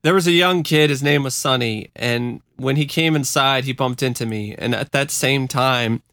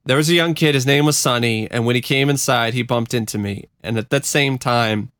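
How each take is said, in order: First: Real emotion catching while reading; choked up. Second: Said in the usual way. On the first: Real, not acted. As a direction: read on while getting choked up. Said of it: "I'm just getting choked up".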